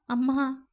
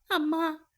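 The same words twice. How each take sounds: First: First call to mother, mild sob; starting to sob. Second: Second அம்மா higher, breaking into a sob; sobbing. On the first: Daughter calls her dead mother, beginning to sob. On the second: Daughter cries out for her mother, sobbing harder. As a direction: let the grief rise on அம்மா. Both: A narrator's reading. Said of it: "என்று விசும்ப ஆரம்பித்தாள்".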